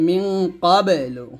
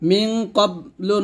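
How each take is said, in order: First: The q sound is released with an echoing bounce. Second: The q sound is closed off flat, without a bounce. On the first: The speaker calls it right. "কলকলা করতে হবে" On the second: The speaker calls it wrong. "না বলে"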